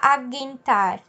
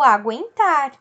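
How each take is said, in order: First: The u after the g is silent. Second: The u after the g is pronounced. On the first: The speaker calls it wrong. "eu não vou falar aguentar" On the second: The speaker calls it right. "eu falo aguentar"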